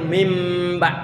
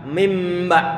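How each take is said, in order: The two takes are said the same way.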